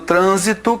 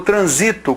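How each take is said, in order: First: The stress is on the first syllable. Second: The stress is on the second syllable. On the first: It is a noun meaning traffic. "que é um substantivo" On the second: It is a verb meaning I pass through. "virou verbo transito, com a mudança dessa sílaba tônica"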